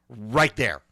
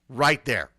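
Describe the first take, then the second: No difference in how they are said.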